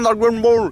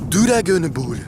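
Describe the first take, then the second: First: It is said with a normal English pronunciation. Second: It is said with a Japanese-style pronunciation. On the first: Japanese listeners will not understand it. The speaker calls it wrong. "tu vas pas dire Dragon Ball" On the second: Japanese listeners will understand it. The speaker calls it right. "il faut prononcer à la japonaise les mots"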